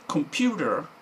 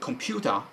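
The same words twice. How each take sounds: First: It is said with an American accent. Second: It is said with a British accent. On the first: "American or English pronunciation" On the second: "American or English pronunciation"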